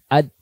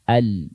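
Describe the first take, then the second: First: The L sound is cut off abruptly. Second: The L sound flows on slightly. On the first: The speaker calls it wrong. "bukan ad" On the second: The speaker calls it right. "berikan dia ruang sedikit"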